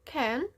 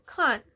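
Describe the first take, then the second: First: The word is said with an American accent. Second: The word is said with a British accent. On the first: "Bagaimana orang Amerika menyebutkan kata tidak bisa dengan" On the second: "bagaimana orang British atau orang Inggris menyebutkan kata tidak bisa sebagai"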